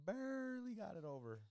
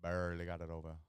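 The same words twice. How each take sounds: First: Squeaky high put-on voice. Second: Louder put-on voice. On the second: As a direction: say it again with more punch.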